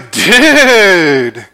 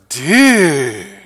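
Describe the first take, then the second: First: It is said with lively, excited energy. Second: It is said with incredulous, disbelieving surprise. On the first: The speaker is thrilled. "to say you're excited, you might say" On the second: Something sounds crazy. "to say that sounds crazy, you might go"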